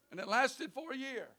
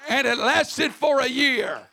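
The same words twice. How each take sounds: First: Much softer, hushed repeat; quiet echo. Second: Said in the usual way. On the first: Real, not acted. Preacher echoes the miracle to the congregation, hushed and soft. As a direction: drop it to a near hush. Repeats the line, dropping low.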